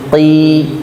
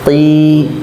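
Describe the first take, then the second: Both takes have the same delivery.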